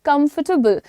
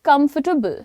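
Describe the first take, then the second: Both takes have the same delivery.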